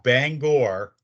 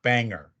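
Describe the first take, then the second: First: The second syllable has a full 'gor' vowel. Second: The second syllable is a reduced 'ger' sound. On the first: The speaker calls it right. "that's how you pronounce it" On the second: The speaker calls it wrong. "so many people mispronounce"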